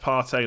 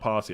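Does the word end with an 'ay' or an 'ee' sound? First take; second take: ay; ee. First: The last syllable ends with an 'ay' sound. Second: The last syllable ends with an 'ee' sound. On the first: The speaker calls it right. "It's pronounced partay" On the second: The speaker calls it wrong. "not party"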